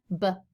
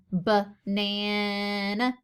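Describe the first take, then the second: First: Said in the usual way. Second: Banana stretched slowly with a rising end; Banana drawn out and rising. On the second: Shown as a demonstration. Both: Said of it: "Do you hear that?".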